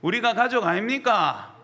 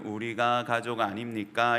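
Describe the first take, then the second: First: It is said in a Gyeongsang regional accent. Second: It is said in a plain standard accent. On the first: The speaker calls it right. "경상도 억양으로" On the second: The speaker calls it wrong. "이렇게 하면 안 되고"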